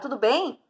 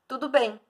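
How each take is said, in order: First: It is said as a question. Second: It is said as a statement.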